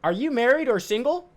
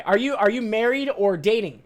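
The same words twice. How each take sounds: First: "Are you married or single?" with a rise on "married"; imitating the caller. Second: "Are you, are you married or dating?" with "dating" said clearly; corrected imitation. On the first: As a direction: mimic her question, stressing "married". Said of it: "this is how she said". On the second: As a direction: mimic her corrected question, landing on "dating". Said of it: "Or sorry".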